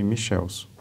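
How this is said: The name is said with Brazilian Portuguese pronunciation. "vou adotar uma pronúncia brasileirada"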